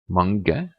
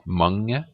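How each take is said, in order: First: The g is pronounced as a hard separate sound. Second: The g is weak, blended into an ng sound. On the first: The speaker calls it wrong. "it's not mange" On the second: The speaker calls it right. "the G, it's very weak. It's like in the ring"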